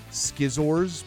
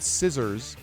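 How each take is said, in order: First: The word begins with an sk sound. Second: The word begins with a plain s sound. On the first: The speaker calls it wrong. "I started to pronounce it skizzors" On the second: The speaker calls it right. "I could pronounce the word scissors perfectly well"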